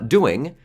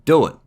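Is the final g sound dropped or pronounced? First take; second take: pronounced; dropped. First: The final g sound is pronounced. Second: The final g sound is dropped.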